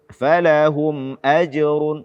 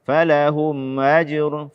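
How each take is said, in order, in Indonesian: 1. Hamzah sebelum ajrun diucapkan dengan jelas. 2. Hamzah sebelum ajrun lemah dan tidak jelas.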